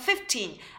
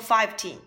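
First: The first part sounds like 'fif'. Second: The first part sounds like 'five'. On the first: The speaker calls it right. "要念成15, F-I-F-T-E-N" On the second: The speaker calls it wrong. "不能念成15"

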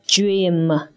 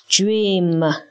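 First: The word begins with a 'j' sound. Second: The word begins with a 'j' sound.

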